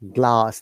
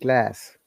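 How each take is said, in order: First: The vowel is a long open ah sound. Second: The vowel is a flatter, fronted a sound.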